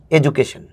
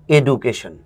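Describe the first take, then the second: First: "এডুকেশন" as "e-ju-ka-shon" with the ju sound but no English stress; right sounds, wrong rhythm on "এডুকেশন"; ju sound, no tune. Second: "এডুকেশন" with a hard d, "e-du-ka-shon", no English stress; the wrong take of "এডুকেশন", hard du sound; flat wrong education. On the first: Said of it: "এখানে pronunciation নাই, accent আছে". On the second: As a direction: say "এডুকেশন" the flat local way, "du" not "ju". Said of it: "এখানে অ্যাকসেন্টও নাই, প্রনাউন্সিয়েশনও নাই". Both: Shown as a demonstration.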